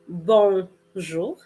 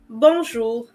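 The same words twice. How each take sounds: First: It is said slowly with exaggerated articulation. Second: It is said quickly and smoothly. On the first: "I'm going to over exaggerate the pronunciation" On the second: "when I said it, it was really quick, really smooth"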